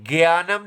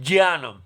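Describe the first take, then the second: First: The word begins with a g sound. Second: The word begins with a j sound. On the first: The speaker calls it wrong. "ग नहीं पढ़ते, ज्ञानम नहीं पढ़ते" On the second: The speaker calls it right. "आधा ज ज्ञ और अ"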